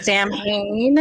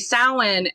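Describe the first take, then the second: First: The middle is said with a clear m sound. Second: The middle is said without any m sound. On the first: The speaker calls it wrong. "pronounce Samhain as Samhain. Um, I hate that so much" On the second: The speaker calls it right. "pronounce it correctly and say Samhain"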